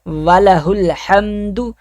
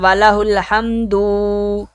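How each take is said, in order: First: The final syllable of hamdu is kept short. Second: The final syllable of hamdu is drawn out long. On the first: The speaker calls it right. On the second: The speaker calls it wrong.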